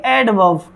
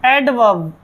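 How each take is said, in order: First: "एडवर्ब" as ed-vav, no R; correct silent R. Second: "एडवर्ब" with the R sounded before the final B; students' mispronunciation. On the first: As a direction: drop the R in "एडवर्ब", voice falling low. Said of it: "आर है वो silent है". ("एडवर्ब" को एडवब, र silent) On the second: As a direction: pronounce the R in "एडवर्ब", as students wrongly do. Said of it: "ऐसे बोलते हैं विद्यार्थी". ("एडवर्ब" में र की आवाज़ के साथ, गलत उच्चारण) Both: Shown as a demonstration.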